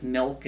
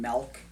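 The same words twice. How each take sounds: First: "milk" said with the vowel of silk; milk with short I. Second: "milk" said melk, with an eh vowel. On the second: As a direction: say milk to rhyme with elk. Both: Shown as a demonstration. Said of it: "if you pronounce it milk".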